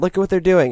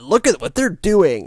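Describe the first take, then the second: First: It is said in a flat, shrugging tone. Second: It is said in a shocked, alarmed tone. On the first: This behavior is ordinary business. "It's like, yeah" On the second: This behavior is outrageous. "The tone of the Verge article is like, "Oh my God"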